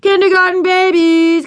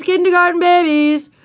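First: Much higher and louder, a mocking boy's chant; taunting yell. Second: Much higher, mocking sing-song chant; repeated taunting yell. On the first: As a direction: jeer at the little ones. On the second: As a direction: keep jeering as they run by. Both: A narrator's reading. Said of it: "big first grade boys ran past yelling".

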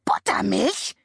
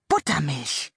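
First: Buttermilch? shrieked high in disbelief; shrieking raven. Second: Said in the usual way. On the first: A narrator's reading. Raven shrieks at the buttermilk rain, high and shocked. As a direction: screech the word Buttermilch? up high. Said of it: "kreischte Abraxas". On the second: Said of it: "narration before the raven's shriek".

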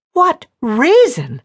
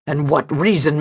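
First: Slow, loud echo, leaping up on "reason"; furious squeak. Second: Said in the usual way. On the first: A narrator's reading. Woman repeats his question in near fury, squeaking on "reason". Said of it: "her voice going up dangerously on the last word in a squeak of near fury".

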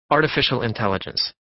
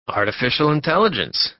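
First: Said in the usual way. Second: Echoed back higher and louder, impressed; wondering echo. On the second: Acted. Passenger echoing Warren's job, higher and louder. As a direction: repeat it back like a curious stranger. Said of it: "came the echo".

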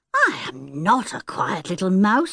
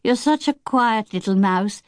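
First: A touch of wounded surprise; protest, a little hurt; mildly indignant sister; surprised and hurt. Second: Said in the usual way. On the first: A narrator's reading. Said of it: "surprised and rather hurt".

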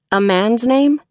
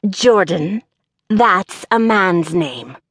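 First: "A man's name?" higher, rising to a question; questioning echo. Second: Slow, over-enunciated gravelly character voice; peculiar gravel voice. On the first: Applicant queries the employer, "A man's name?" as rising question. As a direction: echo "A man's name?" in own voice, lifting at the end. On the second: Employer objects to the applicant's name, peculiar gravelly voice. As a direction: stretch out each word, gravelly and disapproving. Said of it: "enunciated in a peculiar voice". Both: A narrator's reading.

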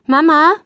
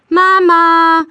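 First: Questioning call, raised pitch; short high call into the house. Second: Long, loud high call; drawn-out impatient shout for Mama; insistent calling. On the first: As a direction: call out for Mama, louder and higher. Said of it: "ruft Greta". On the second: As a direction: call loudly and hold the word out. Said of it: "ruft Greta wieder". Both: A narrator's reading.

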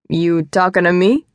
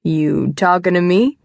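First: Lightly voiced New York taxi driver accent; a touch of movie tough-guy taxi driver accent, ending on a rise; De Niro accent. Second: Put-on De Niro accent. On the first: Man in suit joking with lost woman, De Niro accent. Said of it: "perfect De Niro taxi driver accent". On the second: Man repeating his joke for her, De Niro accent. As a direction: draw out the movie taxi driver line, rising at the end. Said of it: "in a perfect De Niro taxi driver accent".

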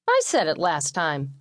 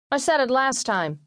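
First: Slow, emphatic rival brother; brother's counter-claim. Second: Put-on higher-pitched indignant boy; boy protesting. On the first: Middle brother disputing the oldest's claim to grace, insistent. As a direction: counter it slowly, without raising the pitch. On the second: Oldest brother arguing at dinner over grace, protesting. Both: A narrator's reading.

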